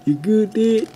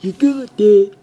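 First: High Western cowboy voice; mock Western twang, higher; Western accent. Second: Much higher, louder Western twang; squeaky mock cowboy; Western accent. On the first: Kid checking on dad in a Western accent. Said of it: "I just had to do that Western accent". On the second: Kid repeating the line in a higher Western accent. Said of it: "or whatever accent that was".

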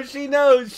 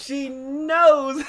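First: Said in the usual way. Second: "knows" stretched out long; drawn-out, emphatic "knows"; stress on knows. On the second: Real, not acted. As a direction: lean hard on "knows" and draw it out.

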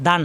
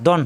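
First: "দান" with an open aa, "daan"; wrong open vowel. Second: "দন" with a rounded o, "don"; correct rounded vowel. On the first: Teacher warning against the wrong sound, open vowel in "দান". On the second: Teacher giving learners the right sound, rounded vowel in "দন". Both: Shown as a demonstration. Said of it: "দান হবে না, দন হবে".

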